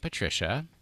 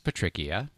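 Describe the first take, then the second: First: The name is pronounced the usual, conventional way. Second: The name is pronounced the way its spelling suggests. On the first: The speaker calls it right. "the name Patricia" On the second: The speaker calls it wrong. "which I thought was Patricia, because clearly, why wouldn't it be?"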